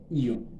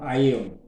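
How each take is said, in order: First: The word starts with one single vowel sound. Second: The word starts with two separate vowel sounds. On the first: The speaker calls it right. "você não fala o A, né? Seria só Ion" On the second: The speaker calls it wrong. "não Aeon"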